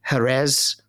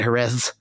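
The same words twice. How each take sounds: First: The final consonant sounds like an s. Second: The final consonant sounds like th. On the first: This is how it is said in Mexico. "a fellow from Mexico would probably say Jerez" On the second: This is how it is said in Spain. "in Spain, they call it Jerez"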